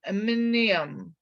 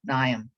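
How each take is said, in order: First: The M at the start is sounded. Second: The M at the start is silent. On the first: The speaker calls it wrong. "you want to say like aminium" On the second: The speaker calls it right. "That's a silent M there"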